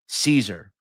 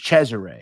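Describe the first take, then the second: First: The name is said with American pronunciation. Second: The name is said with Sicilian pronunciation. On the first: "the American pronunciation" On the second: "the Sicilian pronunciation is Cesare"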